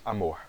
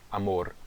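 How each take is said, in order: First: The final r is soft, not trilled. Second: The final r is strongly trilled. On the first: This is the Brazilian Portuguese pronunciation. "no português nós dizemos amor" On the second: This is the Spanish pronunciation. "e no espanhol eles sim fazem"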